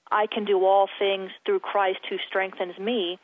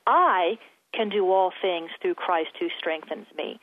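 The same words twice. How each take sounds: First: Said in the usual way. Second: I stressed, slow and deliberate; the speaker demonstrates meditating on a verse, stress on I. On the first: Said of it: "So I'll say". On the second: Shown as a demonstration. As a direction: lean on the word I, then read the rest slowly. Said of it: "to emphasize one word each time".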